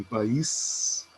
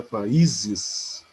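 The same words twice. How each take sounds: First: "país" with the final "ís" stressed and held; stress on final syllable. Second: "países" with a long, punched "í" before a light "ses"; stress on penultimate syllable. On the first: Teacher showing the tonic syllable of país, stressed ending. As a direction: say "país" as two syllables, landing on "ís". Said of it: "a sílaba tônica é o is". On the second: Teacher showing how the plural shifts syllables, stressed middle. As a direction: stretch and lift the "í" in "países". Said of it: "essa sílaba que era a última passa a ser penúltima". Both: Shown as a demonstration.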